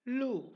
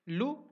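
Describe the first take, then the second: First: Lu with a drawn-out long oo; long loo. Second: Lu with a short, quick u. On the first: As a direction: stretch the oo of lu. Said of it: "second one is longer". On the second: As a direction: clip the u in lu short. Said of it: "the first one is a shorter". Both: Shown as a demonstration.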